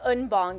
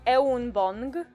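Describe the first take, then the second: First: The first vowel is a single sound. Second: The first vowel is split into two sounds. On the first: The speaker calls it right. "the E U is a singular sound in Korean. It's not two separate syllables. It's roughly like" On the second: The speaker calls it wrong. "pronounce each letter separately like you would in Polish. That's not correct"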